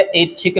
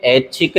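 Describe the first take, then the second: First: ऐच्छिक starting on a pure e, ech-chhik; wrong pronunciation. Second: ऐच्छिक starting on a wide ai, aich-chhik; correct pronunciation. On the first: Teacher showing the mistake, ऐच्छिक said with initial e. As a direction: open ऐच्छिक with e. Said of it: "नहीं है". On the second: Teacher correcting it, ऐच्छिक said with initial ai. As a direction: open ऐच्छिक with ai. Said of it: "ऐच्छिक है". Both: Shown as a demonstration.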